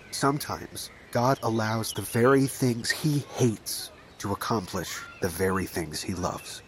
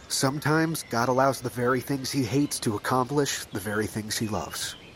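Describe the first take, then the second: First: It is said more slowly. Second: It is said at normal speed.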